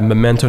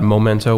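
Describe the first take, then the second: First: The first syllable sounds like 'meh'. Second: The first syllable sounds like 'moh'. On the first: The speaker calls it right. "I want to clarify Memento" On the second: The speaker calls it wrong. "not Momento, which is a very common mistake"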